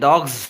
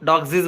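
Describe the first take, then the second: First: The word ends with a single 'z' sound. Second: The word ends with an extra 'zees' syllable. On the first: The speaker calls it right. "జ్ sound" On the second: The speaker calls it wrong. "డాగ్జీస్ కూడా అనకూడదు"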